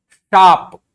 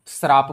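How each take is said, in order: First: शाप very loud and high, plain sh with no r; original form. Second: श्राप with an r slipped in after the sh; altered form with r. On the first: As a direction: punch out शाप as one long syllable, sh straight into aa. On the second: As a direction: add an r to make it श्राप. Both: Shown as a demonstration. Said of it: "शाप को श्राप बना दिए".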